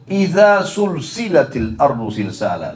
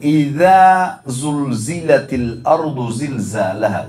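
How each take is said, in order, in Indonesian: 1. Konsonan kuncinya adalah bunyi s yang mendesis. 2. Konsonan kuncinya adalah bunyi z yang bergetar. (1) "sin diganti"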